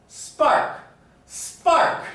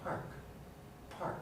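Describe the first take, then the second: First: Loud, forceful SPARK with no puff on the P; loudly. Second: Very soft PARK, P still aspirated; hushed word with a puff on the P; quietly. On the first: Teacher showing volume adds no aspiration, loud spark. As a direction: belt out spark, keeping the P unaspirated. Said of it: "even loudly pronouncing it". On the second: Teacher showing volume doesn't matter, quiet park. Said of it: "even quietly". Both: Shown as a demonstration.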